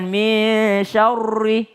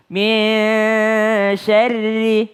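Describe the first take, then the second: First: SYARRI rounded and heavy, like "syaurri"; wrong thick ri. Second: SYARRI with a light, thin R and long-held MIN. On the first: Teacher showing wrong syarri, heavy rounded R. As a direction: thicken the R of SYARRI with an O-coloured vowel. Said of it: "bukan min syarri". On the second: Teacher correcting students' syarri, thin R. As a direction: keep the RI of SYARRI thin, not rounded. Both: Shown as a demonstration.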